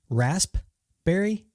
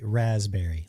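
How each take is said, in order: First: The first syllable has an S sound. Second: The first syllable has a Z sound.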